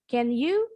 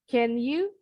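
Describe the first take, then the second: The two takes are said the same way.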